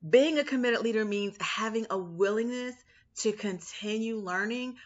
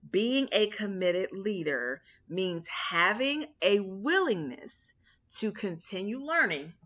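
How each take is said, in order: First: The sentence is spoken at a normal pace. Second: The sentence is spoken very slowly.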